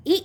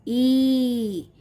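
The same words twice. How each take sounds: First: ई said briefly, stopped at once; short sound. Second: ई drawn out long and level; long sound. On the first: Teacher contrasting the two sounds again, short ई. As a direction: make ई quick and short. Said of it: "short sound". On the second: Teacher contrasting the two sounds for children, long ई. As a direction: hold ई for a long beat. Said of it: "इसे हमें खींच के बोलना होता है". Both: Shown as a demonstration.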